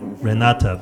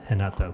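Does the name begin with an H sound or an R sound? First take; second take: R sound; H sound. First: The name begins with an English R sound. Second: The name begins with an H-like sound. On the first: This is how the spelling suggests it is said. "you write it Renata" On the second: This is how it is said in Brazil. "you pronounce it Renata because she's from Brazil"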